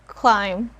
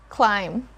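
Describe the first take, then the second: The two takes are said the same way.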